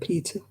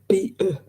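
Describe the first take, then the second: First: The t sound is clearly pronounced. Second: The t sound is dropped. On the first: "instead of" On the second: "they miss the tea out of everything"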